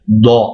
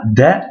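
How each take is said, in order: First: "da" with a heavy emphatic d and a dark back a. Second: Said in the usual way. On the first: Shown as a demonstration. Teacher showing the emphatic del: heavy "da". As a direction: say "da" thick, as the Arabic dad. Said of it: "c'est le del emphatique". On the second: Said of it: "On dira pas da".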